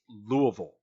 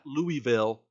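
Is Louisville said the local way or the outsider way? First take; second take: local; outsider. First: It is said the way local residents say it. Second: It is said the way outsiders say it. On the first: The speaker calls it right. "That is pronounced Louisville, ... That's how the locals pronounce it" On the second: The speaker calls it wrong. "not Louisville"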